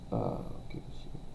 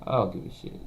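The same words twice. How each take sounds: First: Breathy whispered repeat. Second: Said in the usual way. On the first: Real, not acted. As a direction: drop to a bare whisper. Same line repeated in a whisper.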